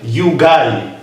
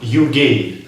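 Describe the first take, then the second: First: The last syllable has an 'eye' vowel. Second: The last syllable has an 'ay' vowel. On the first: The speaker calls it right. "I'm you guy" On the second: The speaker calls it wrong.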